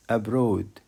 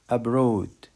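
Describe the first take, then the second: No difference in how they are said.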